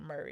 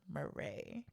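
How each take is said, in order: First: The stress is on the first syllable. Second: The stress is on the second syllable. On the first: "instead of saying Murray" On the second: "he emphasizes the Ray"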